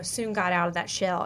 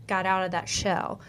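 First: Slip of country accent. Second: Said in the usual way. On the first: Real, not acted. Host admits her country accent slipped out on "shell". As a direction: let a bit of Southern country accent slip into "got out of that shell". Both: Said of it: "my country accent coming out".

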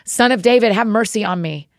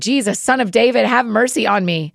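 First: Slightly louder shout. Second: A touch of a cry for mercy, higher at the start; understated shout. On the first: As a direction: call out a bit more insistently, still restrained. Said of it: "he shouted even more loudly". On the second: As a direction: read a shouted plea with restraint. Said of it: "Then he shouted". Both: A narrator's reading.

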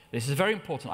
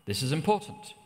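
First: "very" pressed down hard and falling; "very" given the weight of the sentence; stress on very. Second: Said in the usual way. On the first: Shown as a demonstration. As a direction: lean on "very" to drive it home.

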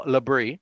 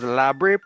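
First: Labre with a weak, reduced first syllable; second pronunciation option. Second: Labre stressed on the first syllable; first pronunciation option. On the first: Host offering the other option for the name, Labre with later stress. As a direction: say Labre as "luh-BREE". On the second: Host offering one option for the name, Labre with front stress. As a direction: say Labre with a full, open first vowel. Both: Shown as a demonstration. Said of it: "giving the two options".

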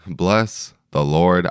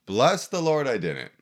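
First: Slow, drawn-out praise; slow emphatic. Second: Joyful exclaim. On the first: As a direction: stretch each word out reverently. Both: Real, not acted. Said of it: "did I have a hangover".

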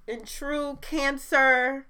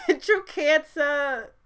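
First: Dramatic pause. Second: Slow words broken by laughter, higher and louder; giggling through the words; laughing. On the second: Laughing at herself for getting teary, high and slow. Laughing at her own emotion. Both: Real, not acted.

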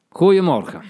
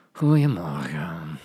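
First: Loud, higher angry bark. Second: Low, slow, bored drawl. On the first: Teacher demonstrating an angry good morning, loud. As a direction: snap the greeting out in anger. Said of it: "Je kan het ook boos zeggen". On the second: Teacher demonstrating a bored good morning, low and slow. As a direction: sound like you couldn't care less. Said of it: "Je kan dat ook heel verveeld zeggen". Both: Shown as a demonstration.

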